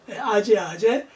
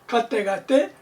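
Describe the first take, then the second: First: Each word starts with an 'a' sound, 'aje'. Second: Each word starts with a 'g' sound, 'gate'. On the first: This is the standard reading in Korean Buddhism. "우리 한국 불교권에서는 표준어로 정리를 했다" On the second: This is the internationally used pronunciation. "국제적인 통용되는 발음은"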